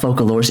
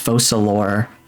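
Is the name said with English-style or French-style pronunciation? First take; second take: English-style; French-style. First: The name is pronounced in a plain English way. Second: The name is pronounced in a French way. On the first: The speaker calls it wrong. "It's not Focalors" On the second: The speaker calls it right. "it's French. It's not Focalors, it's Focalors"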